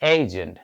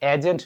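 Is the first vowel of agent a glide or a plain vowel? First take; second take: glide; plain. First: The first vowel glides from e to i. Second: The first vowel is a plain short e. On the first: The speaker calls it right. "উচ্চারণটা হয়ে যাবে এইজেন্ট" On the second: The speaker calls it wrong. "এখন থেকে আর এজেন্ট নয়"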